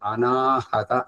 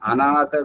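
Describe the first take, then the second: First: The word is said with four syllables, including 'ha'. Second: The word is said with three syllables, no 'ha'. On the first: The speaker calls it right. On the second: The speaker calls it wrong. "ఉచ్చారణ అనాథ కాదు"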